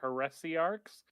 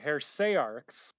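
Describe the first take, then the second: First: The word is said with four syllables. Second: The word is said with three syllables. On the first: "that's four syllables" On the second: "you can break it down to three"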